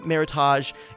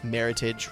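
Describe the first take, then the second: First: The ending is given a fancy French-sounding pronunciation. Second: The ending is plain and rhymes with 'heritage'. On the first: The speaker is trying to sound fancy. The speaker calls it wrong. "like trying to get fancy" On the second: The speaker is saying it plainly. The speaker calls it right. "it rhymes with heritage"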